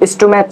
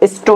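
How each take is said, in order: First: The word ends with a 'ch' sound. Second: The word ends with a 'k' sound. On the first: The speaker calls it wrong. "এটা কিন্তু স্টোম্যাচ না" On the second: The speaker calls it right. "এটা হচ্ছে স্টোম্যাক"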